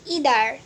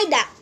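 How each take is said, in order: First: It is said the American way. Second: It is said the British way.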